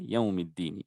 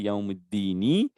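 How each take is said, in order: First: The word ends on the consonant n. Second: The word ends with an added final vowel. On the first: The verse ends here. The speaker calls it right. "we stop at Yawmiddin" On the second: The verse continues into the next one. The speaker calls it wrong. "We don't say Yawmiddini"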